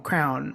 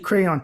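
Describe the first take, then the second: First: The word is said as one syllable. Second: The word is said as two syllables. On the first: The speaker calls it wrong. "just jump to the O N then" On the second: The speaker calls it right. "begin to say"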